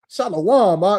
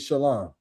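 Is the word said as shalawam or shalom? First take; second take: shalawam; shalom. First: The word is stretched into three syllables, shalawam. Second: The word is said in two syllables, shalom. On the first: The speaker calls it wrong. "that's the wrong way to approach Christ" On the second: The speaker calls it right. "The appropriate way is to say shalom"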